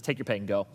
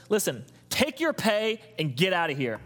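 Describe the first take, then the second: First: Said in the usual way. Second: Landowner's retort. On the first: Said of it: "Actually, it just says". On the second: Retold or imitated. Pastor voicing the landowner's blunt dismissal. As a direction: send them off bluntly. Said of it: "I would just say it the way I would have said it".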